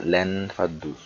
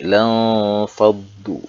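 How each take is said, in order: First: The n sound is pronounced clearly. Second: The n sound is muffled and faint. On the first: The speaker calls it wrong. "tidak boleh dibaca lan faddu" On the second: The speaker calls it right. "Bacaannya adalah ikhfa, samar-samar"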